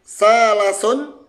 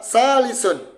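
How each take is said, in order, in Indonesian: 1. Suku kata kedua memiliki vokal a. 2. Suku kata kedua memiliki vokal i. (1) "Bisa dibaca salasun" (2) "ternyata ini itu dibaca salisun ... yang kedua di kasrah"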